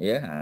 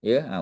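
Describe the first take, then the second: No difference in how they are said.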